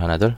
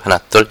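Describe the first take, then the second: First: The voice sounds like its natural tone. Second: The high frequencies of the voice are boosted. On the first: "이 정도면 원래 제 목소리입니다" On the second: "하이 필터만 올려보면"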